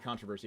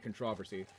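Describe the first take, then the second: First: It is pronounced in a non-Canadian way. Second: It is pronounced in a Canadian-sounding way. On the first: This is the way the speaker does not say it. "I don't say controversy" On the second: This is the way the speaker actually says it. "I sound like an honorary Canadian. ... I say controversy"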